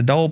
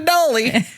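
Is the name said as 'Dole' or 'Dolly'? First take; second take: Dole; Dolly. First: The name is said as 'Dole'. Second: The name is said as 'Dolly'. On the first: The speaker calls it right. "They were more like, more, come on into Dole plantation" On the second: The speaker calls it wrong. "It's definitely not Dolly"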